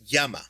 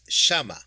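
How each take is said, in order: First: It is said in a standard Spanish accent. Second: It is said in an Argentinian Spanish accent. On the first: "instead of saying like the word llama in Spanish" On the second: "for Argentinian, Argentinian Spanish, it's not llama, it's shama"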